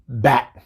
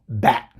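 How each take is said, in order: First: The word ends with a glottal stop for T. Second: The same.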